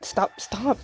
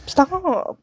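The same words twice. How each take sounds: First: Said in the usual way. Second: High, loud final stop; shouted stop. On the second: Acted. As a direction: yell it to end it. Pushing away a handsy person.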